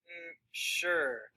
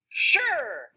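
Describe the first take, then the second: First: Hesitate, then agree without really wanting to; reluctant. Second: High, loud, excited burst. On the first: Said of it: "she's not really wanting to do this?". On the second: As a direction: say it with eager enthusiasm. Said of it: "like she's excited about it?". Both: Shown as a demonstration.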